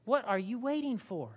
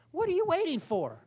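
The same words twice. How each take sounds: First: Said in the usual way. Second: "What are you waiting for?" repeated much higher, stress on "you"; emphatic repeat. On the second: Shown as a demonstration.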